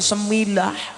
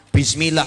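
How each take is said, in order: First: The word is said with a reduced opening sound. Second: The word is said with its full opening sound. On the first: This is how a Javanese tongue actually says it. The speaker calls it wrong. "metune semilah" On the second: This is how the word is meant to be read. The speaker calls it right.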